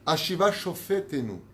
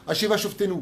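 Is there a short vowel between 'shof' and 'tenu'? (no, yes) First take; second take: yes; no. First: A short vowel is heard after 'shof'. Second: No vowel is heard after 'shof'. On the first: Bring back our judges. The speaker calls it right. "je vais vous lire comment il faut le prononcer avec le Jvana" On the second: You judge us. The speaker calls it wrong. "Pas du tout. C'est pas ce qui a marqué"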